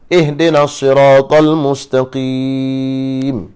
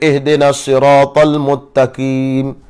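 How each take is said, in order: First: The last word has an s sound. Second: The last word has no s sound.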